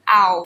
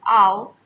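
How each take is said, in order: First: It is said with a standard accent. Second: It is said with an Asian accent.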